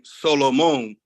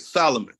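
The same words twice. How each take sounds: First: The name has a non-English pronunciation. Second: The name has an English pronunciation. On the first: This is the name's original form. The speaker calls it right. "the proper pronunciation" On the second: The name has been anglicized. The speaker calls it wrong. "you English it"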